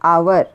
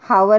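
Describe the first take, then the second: First: The word begins directly with a vowel sound. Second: The word begins with a breathy h sound. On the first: The speaker calls it right. "एच is silent over here. So we are pronouncing hour" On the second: The speaker calls it wrong. "हावर is not there. एच we are not pronouncing"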